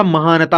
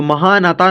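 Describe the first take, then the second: First: महानता with a short 'na' before the 'ta'; correct short vowel. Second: महानाता with a long 'naa'; wrong long vowel. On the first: Teacher correcting the misreading, short-vowel pronunciation. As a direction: keep the third syllable of महानता light and brief. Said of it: "महानता होता है". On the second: Teacher showing what the word is not, long-vowel misreading. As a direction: draw out the third syllable of महानाता. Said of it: "महानाता नहीं होता". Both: Shown as a demonstration.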